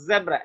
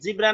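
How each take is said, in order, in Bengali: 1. প্রথম স্বরধ্বনিটি 'eh' এর মতো শোনায়। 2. প্রথম স্বরধ্বনিটি 'ee' এর মতো শোনায়। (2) "জিব্রা না"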